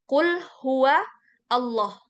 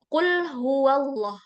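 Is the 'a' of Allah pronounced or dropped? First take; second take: pronounced; dropped. First: The 'a' of Allah is clearly pronounced. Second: The 'a' of Allah is dropped and linked. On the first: "Kalau kita baca bersendirian satu kata itu Allah" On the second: "kalau kita sambung sama kata sebelumnya, A-nya hilang"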